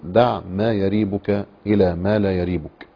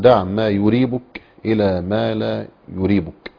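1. يبدأ الفعل بصوت "ya". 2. يبدأ الفعل بصوت "yu". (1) "فالوجه الأول: دع ما يريبك من الفعل الماضي رابا" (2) "والوجه الثاني من الفعل أرابة"

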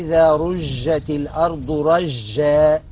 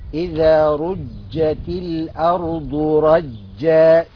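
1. صوت j منتشر، وفيه فحيح نحو sh. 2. صوت j مشدود وحاد، وليس منتشرا. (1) "هذا نطق خطأ. ليه؟ لأنه هو كأنه عمل للجيم تفشي" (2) "الصواب إيه؟"

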